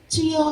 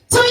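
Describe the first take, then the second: First: It is said softly, without force. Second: It is shouted with full force.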